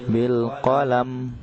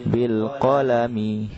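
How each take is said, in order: First: The final m ends without any vowel. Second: The final m is followed by a short i. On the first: The reader stops at this word. "ketika berhenti otomatis dimatikan, disukunkan" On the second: The reading continues without stopping. "aslinya bil qalami, ada kalimat mi, mimnya berkasrah"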